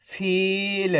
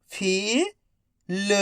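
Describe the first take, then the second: First: "फील" joined as one word, long ee; syllables blended. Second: "फील" split into फी, pause, ल, each drawn out; syllable by syllable. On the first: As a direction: say "फील" in one connected stretch. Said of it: "तो मिलके बन जाएगा". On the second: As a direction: sound out "फील" slowly, फी rising, then ल alone. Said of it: "एक एक अक्षर का उच्चारण". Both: Shown as a demonstration.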